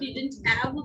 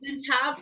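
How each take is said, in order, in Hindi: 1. 'have' में h की ध्वनि छोड़ दी जाती है। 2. 'have' में h की ध्वनि उच्चारित की जाती है।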